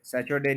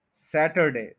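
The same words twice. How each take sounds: First: सैटरडे said with "ch", as SA-chur-day; mispronounced Saturday. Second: सैटरडे with a clear t, SAT stressed; correct Saturday. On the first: Teacher recapping the mistake, Saturday with "ch". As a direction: turn the t of सैटरडे into "ch". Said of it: "नहीं बोलना". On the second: Teacher recapping correctly, सैटरडे with clear t. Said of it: "सैटरडे नहीं बोलना". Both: Shown as a demonstration.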